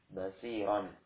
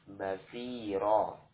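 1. Kata itu berakhir dengan vokal pendek ditambah n. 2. Kata itu berakhir dengan vokal yang dipanjangkan, tanpa n. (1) "Ini kan dua fathah ya" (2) "Fathah yang kedua diganti dengan alif dan dipanjangkan dua harokat"

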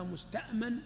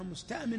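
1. الحركة قبل النون الأخيرة فتحة. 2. الحركة قبل النون الأخيرة كسرة. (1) "هذا هو المعطى للأمان" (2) "هو الذي طلب الأمان"

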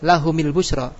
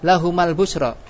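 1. Vokal setelah m adalah i. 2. Vokal setelah m adalah a. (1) "boleh gak kasro?" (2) "Boleh gak fathah?"

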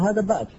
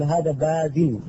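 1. تنتهي الكلمة ساكنة بدون صوت -in. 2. تنتهي الكلمة بصوت -in مضاف. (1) "عند الوقت تقول هذا باز" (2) "تقول هذا بازل"

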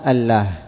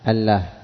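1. تُنطق L خفيفة. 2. تُنطق L خفيفة.

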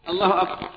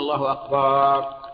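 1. تبقى الحركة الأخيرة في «akbar» قصيرة. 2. تُمَدّ الحركة الأخيرة في «akbar» فتصير طويلة.

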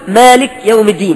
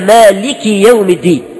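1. لا توجد حركة بعد الكاف. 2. الكاف تتبعها حركة 'i'. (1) "فيسكن الكاف" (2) "لا هي مالكي يوم الدين"

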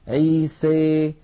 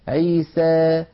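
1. الصائت الأخير يميل كثيرا نحو 'ee'. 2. الصائت الأخير يميل قليلا نحو 'ee'. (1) "يخلط صوت الألف بصوت الياء أكثر" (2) "يخلطون هذا الصوت بشيء من الياء"

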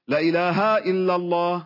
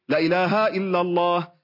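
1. الكلمة الأولى 'la' قصيرة ومتصلة بما بعدها. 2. الكلمة الأولى 'la' قصيرة ومتصلة بما بعدها.

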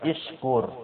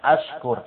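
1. Kata itu diawali dengan vokal i. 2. Kata itu diawali dengan vokal a.

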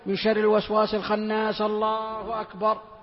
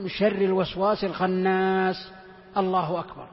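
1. تتصل العبارات ببعضها دون أي سكتة. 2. سكتة قصيرة تفصل بين العبارتين.

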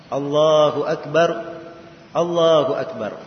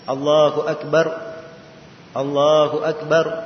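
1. Kedua frasa itu dipisahkan dengan jeda. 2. Kedua frasa itu dipisahkan dengan jeda.

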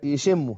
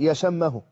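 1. يُنطق بالطريقة العامية اليومية. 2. يُنطق بالطريقة الفصحى. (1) "الناس بيقولوا يشم يشمه" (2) "في اللغة العربية الفصحى أن تقول يشمه"

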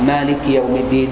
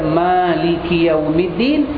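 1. Vokal pertama dalam Maliki pendek. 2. Vokal pertama dalam Maliki panjang. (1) "boleh baca tanpa harakat" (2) "boleh baca dengan satu alif"

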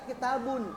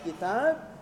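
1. Kata itu berakhir dengan akhiran -un penuh. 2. Kata itu berakhir polos, tanpa akhiran. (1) "Ketika kitabun" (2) "dibaca kitab"

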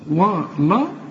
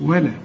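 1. صوت اللام مفخم وتقيل. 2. صوت اللام مرقق وخفيف. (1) "ما تقولش ولقد ولا" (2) "واللام دائما مرققة ... شوف ولا"

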